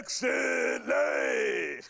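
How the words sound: It is said in a gravelly voice.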